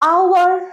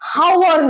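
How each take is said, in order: First: It begins directly with a vowel sound. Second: It begins with an audible h sound. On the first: The speaker calls it right. "এইচ এর উচ্চারণটা silent" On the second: The speaker calls it wrong. "হ হবে না, হাওয়ার নয়"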